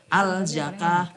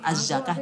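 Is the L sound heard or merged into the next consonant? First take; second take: heard; merged. First: The L sound is clearly heard before the z. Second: The L merges into a doubled z sound. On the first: The speaker calls it wrong. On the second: The speaker calls it right.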